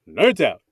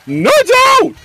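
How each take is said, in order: First: It is said flatly, without much energy. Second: It is said loudly, with lots of energy.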